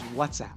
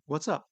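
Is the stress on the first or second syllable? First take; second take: first; second. First: The stress is on the first syllable. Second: The stress is on the second syllable. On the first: It is the name of an app. "make that a title of a hugely popular app, and it suddenly becomes" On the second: It is a casual greeting to a friend. "I might ask them"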